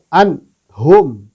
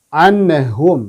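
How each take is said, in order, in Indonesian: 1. Bunyi n terputus secara tiba-tiba. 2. Bunyi n memantul dengan gema saat dilepas. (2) "terpantul seperti huruf mim"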